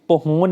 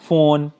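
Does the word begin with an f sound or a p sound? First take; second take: p sound; f sound. First: The word begins with a p sound. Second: The word begins with an f sound. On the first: The speaker calls it wrong. "फोन में ये हम पहोन नहीं कह सकते हैं" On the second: The speaker calls it right. "ये क्या है फोन है, तो यहाँ पे पी जो है वो साइलेंट है"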